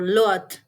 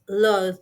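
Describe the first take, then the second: First: The word ends with a t sound. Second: The word ends with a th sound. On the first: The speaker calls it wrong. "or even t" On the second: The speaker calls it right. "the correct pronunciation is loud"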